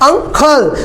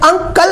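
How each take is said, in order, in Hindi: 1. "k" ध्वनि में हल्का सा हवा का झोंका होता है। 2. "k" ध्वनि अल्पप्राण है, इसमें हवा का झोंका नहीं होता। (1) "यहां पर मैंने यूज किया है अंकल" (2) "यहां पर मैंने अंकल नहीं बोला"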